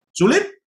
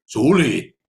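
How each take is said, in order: First: High asking rise on "Sulit?"; preacher's high questioning "Sulit?"; rhetorical question. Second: Said in the usual way. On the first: Shown as a demonstration. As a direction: toss "Sulit?" up high to the crowd.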